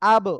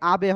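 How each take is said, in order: First: The word ends on a bounced b, no vowel. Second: A full vowel follows the final b sound. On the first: The speaker calls it right. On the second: The speaker calls it wrong. "আবে হবে না"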